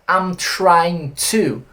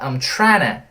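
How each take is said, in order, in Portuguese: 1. Cada palavra é pronunciada completa e separadamente. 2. As palavras se juntam, com 'to' reduzido. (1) "ele não fala I'm trying to" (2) "ele fala I'm trying"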